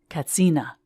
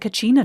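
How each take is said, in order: First: The middle consonant is a 'ts' sound. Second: The middle consonant is a 'ch' sound. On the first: The speaker calls it right. "there is no ch sound in the Hopi language" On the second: The speaker calls it wrong. "tourists have been mispronouncing it as Kachina"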